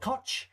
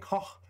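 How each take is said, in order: First: The name ends in an English 'tch' sound. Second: The name ends in a throaty German 'ch' sound. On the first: The speaker calls it wrong. "that's an incorrect pronunciation, but it's how it's spelled" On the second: The speaker calls it right. "Koch is German, so I'm roughly trying to pronounce it as good as I can"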